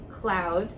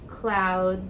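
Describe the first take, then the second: No difference in how they are said.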